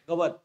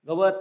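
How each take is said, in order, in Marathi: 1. शेवटचा स्वर गाळला जातो. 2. शेवटचा स्वर पूर्ण उच्चारला जातो. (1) "तच्या पाठीमागील अचा उच्चार निसरडा आहे" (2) "गवत असं म्हणत नाही आपण"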